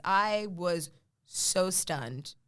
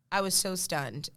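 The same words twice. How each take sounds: First: Slow and drawn out; drawn out in awe. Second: Said in the usual way. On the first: Real, not acted. Remembering seeing her credit, slow and awed. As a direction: stretch each word in amazement. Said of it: "said twice, first drawn out".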